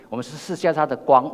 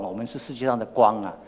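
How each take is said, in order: First: "世界" lifted higher with a rise, a bit louder; stress on 界. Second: Said in the usual way. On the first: Shown as a demonstration. Preacher correcting himself to the congregation, stressing "世界上的光". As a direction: lean on "世界上的光".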